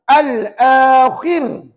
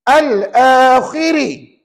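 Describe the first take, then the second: First: The word ends on a bare r sound. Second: The final r is followed by a short i. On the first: The reading stops on this word. "Ra itu sudah jadi mati bila wakaf" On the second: The reading continues without stopping. "Ra itu nipis juga, tapi kaedah satu"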